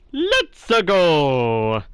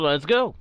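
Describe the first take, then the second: First: It is said in a put-on gamer voice. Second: It is said in his normal voice.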